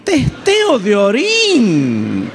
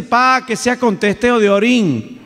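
First: "Testeo de orín" very slow, higher, stunned; incredulous repeat. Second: Higher, slow request; daughter's casual request. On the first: Father repeating his daughter's request, very slow and stunned. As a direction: drag out "Testeo de orín" in disbelief. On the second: Daughter calling after her father, high and casual. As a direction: lightly voice the daughter asking a favour. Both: Retold or imitated.

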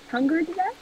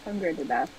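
First: "hunger to death" as a question, rising high at the end. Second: "Hunger to death" set down low, no question lift; statement. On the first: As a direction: test out "hunger to death" with a lifted, unsure ending. Trying out a phrase as question. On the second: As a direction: repeat "Hunger to death" in a lower, settled tone. Same phrase repeated as statement. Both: Real, not acted.

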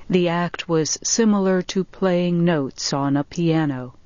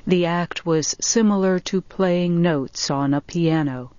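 No difference in how they are said.

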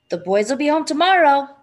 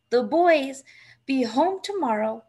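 First: Raised, louder, to wake him; a little more loudly. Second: Hushed murmur, half whispered; wife murmurs to sleeping husband, hushed; softly to herself. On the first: Wife repeats it louder to wake husband. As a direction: say it louder so he wakes. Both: A narrator's reading. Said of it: "and a little more loudly".

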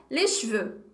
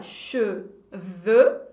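First: "les cheveux" with the first e dropped, as lé chveu; natural contracted pronunciation. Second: "cheveux" very slowly, split into che and veux; slow syllables. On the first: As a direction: run "cheveux" into one syllable, chveu. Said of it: "a gente vai falar". ("les cheveux" contraído, "lé chveu") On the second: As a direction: read "cheveux" syllable by syllable, sounding the first vowel. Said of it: "Se eu for ler devagarzinho". ("cheveux" devagarzinho, che-veux) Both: Shown as a demonstration.

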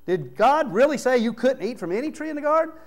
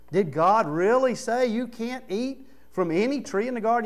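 First: High, sly, mocking tempter voice, pushed up; hammed-up Satan. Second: A lightly voiced sly serpent, slightly higher; mild mock tempter, coaxing the doubt; Satan's question. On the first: Satan twisting God's words to Eve, high mocking sneer. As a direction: ham up the serpent's sneer. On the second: Satan tempting Eve, a hint of a sly voice. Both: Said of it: "You know that's how he said it".

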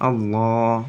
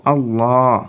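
First: আল্লাহ with the a held one beat; one-alif stretch. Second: আল্লাহ with the a drawn long and louder; long vowel. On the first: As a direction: hold the a of আল্লাহ for one count. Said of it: "এক আলিফ টেনে". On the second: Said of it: "যেগুলো টেনে পড়তে হয়". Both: Shown as a demonstration.

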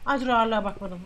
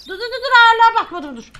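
First: Said in the usual way. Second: High, loud rapid-fire stop; urgent halt. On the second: Real, not acted. Officer halting the check over forgotten weight, urgent halt.

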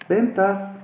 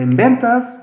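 First: Said in the usual way. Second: Ventas called out higher and louder; little shout. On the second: Shown as a demonstration. Teacher showing how Excel shouts the sheet name, mock little shout. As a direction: give ventas a small playful yell, like an exclamation mark. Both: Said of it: "pero gritadito".

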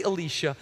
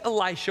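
First: Elisha said eh-LEE-sha; Elisha with long E. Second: Elisha said eh-LIE-sha; Elisha with long I. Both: Shown as a demonstration. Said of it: "or some say Elisha".

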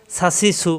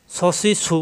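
First: "সা সি সু" with a light, open s; distinct light s. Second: "স সি সু" with a heavy, rounded s; distinct heavy s. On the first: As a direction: keep "সা সি সু" thin, unrounded. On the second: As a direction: make "স সি সু" heavy, set apart from "সা সি সু". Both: Shown as a demonstration. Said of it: "পার্থক্য খেয়াল করতে হবে উচ্চারণের".

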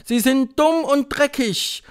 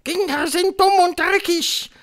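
First: High, loud, drawn-out echo; witches' chorus. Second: Very high, loud proclamation; thundering Grand High Witch. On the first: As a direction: chant it slowly back to the leader. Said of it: "antwortete der Chor der englischen Hexen". (Hexenchor, langsam und laut nachsprechend) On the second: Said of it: "donnerte die Hoch". (donnernde Hexe, hoch und laut) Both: A narrator's reading.

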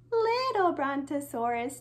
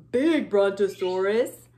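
First: Little voice. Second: Low, loud voice for a big dinosaur. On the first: Teacher showing children the small dinosaur, in a little voice. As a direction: make it sound little. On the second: Teacher showing children the big dinosaur, in a big voice. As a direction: make it sound big and heavy. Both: Shown as a demonstration. Contrasting big and little toys.

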